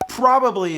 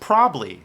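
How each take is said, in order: First: Every syllable of the word is fully pronounced. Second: The middle syllable is dropped, shortening the word. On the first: "the official way to say the word" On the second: "Drop the B and the A"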